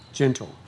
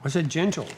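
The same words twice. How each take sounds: First: Said in the usual way. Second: "gentle" stressed and raised; firm repeat. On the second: Real, not acted. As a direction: insist on "gentle" the second time.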